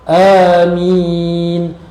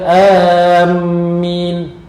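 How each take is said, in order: First: The first vowel is drawn out long. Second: The first vowel is cut short. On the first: The speaker calls it right. "sebutan yang betulnya amin" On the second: The speaker calls it wrong. "bukan amin. Salah"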